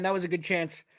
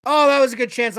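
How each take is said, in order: First: Said in the usual way. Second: Blurted out loud at a near goal; louder excited reaction, real; excited exclamation. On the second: Real, not acted. Fan reacting live to a scoring chance, loud and excited. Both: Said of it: "I just turned off my mic".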